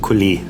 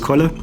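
First: The name ends in a long e sound. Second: The name ends in a short e sound. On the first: "Accent aigu auf dem E, also Collet, ein langes E" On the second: "in Berlin ist es meistens Kolle"

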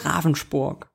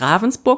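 First: The name is said in local Swabian accent. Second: The name is said in standard German. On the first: The speaker calls it right. "er hat den oberschwäbischen Slang schon drauf" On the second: The speaker calls it wrong. "nicht Ravensburg"

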